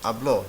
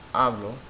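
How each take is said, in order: First: The stress is on the last syllable. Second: The stress is on the first syllable. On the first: He or she spoke. "Habló is aguda" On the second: I speak. "by default it sounds like hablo"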